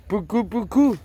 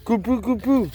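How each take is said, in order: First: "puku puku" said high, syllables swapped; wrong Indonesian word. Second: "kupu kupu" said high, k first, falling; "kupu kupu", correct order, falling; corrected Indonesian word. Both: Shown as a demonstration. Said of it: "papillon en indonésien".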